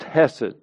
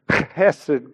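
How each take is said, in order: First: It starts with a soft, gentle H sound. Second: It starts with a harsh, throaty H sound. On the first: "I'll try to soften it. So it's just Hesed" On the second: "it has a hard H on the front in Hebrew, and you kind of have to choke and spit and grunt and groan"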